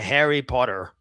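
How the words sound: It is said in an American accent. "Very American"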